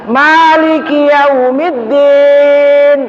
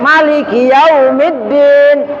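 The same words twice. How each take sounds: First: The first vowel of Maliki is long. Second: The first vowel of Maliki is short. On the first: "Ma-nya panjang" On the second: "Kalau Imam Malik, ma-nya pendek"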